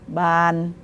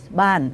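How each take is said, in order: First: The word is said with a non-falling tone. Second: The word is said with a falling tone. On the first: It is a classifier word used for windows. "if you make the wrong tone" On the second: It means house. "It must be the falling tone only. It will mean house"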